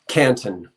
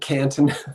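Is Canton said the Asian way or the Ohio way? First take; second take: Ohio way; Asian way. First: It is said the local Ohio way. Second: It is said the Asian way. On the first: The speaker calls it right. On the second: The speaker calls it wrong.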